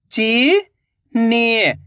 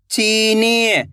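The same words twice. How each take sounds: First: चीनी stretched very slowly, each sound held long. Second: Said in the usual way. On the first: Shown as a demonstration. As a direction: drag out चीनी for the learner. (चीनी को बहुत धीरे खींचकर बोलें) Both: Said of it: "तो मिलके बन जाएगा".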